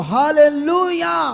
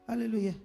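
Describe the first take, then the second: First: It is said with full, wholehearted energy. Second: It is said half-heartedly, with little energy.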